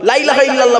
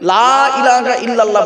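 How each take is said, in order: First: The first word's vowel is cut short. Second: The first word's vowel is drawn out long. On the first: There surely is a god besides Allah. The speaker calls it wrong. "বলবেন না" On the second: There is no god but Allah. The speaker calls it right. "লামে টান দেবেন"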